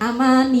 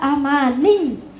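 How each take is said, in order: First: The y sound is light and short. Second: The y sound is pressed and held long. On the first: The speaker calls it wrong. "Jangan amani" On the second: The speaker calls it right. "Agak ditekan"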